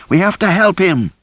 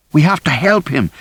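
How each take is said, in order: First: Even higher, near-shrieked repeat; the plea cracks upward in panic; more frantic plea. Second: High, frantic cry to help; pleading, rising toward a shriek; desperate plea. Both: A narrator's reading. Rosie struggling to reach David.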